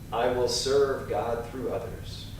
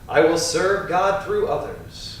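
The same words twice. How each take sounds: First: It is said in a whisper. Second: It is said in a strong, loud voice.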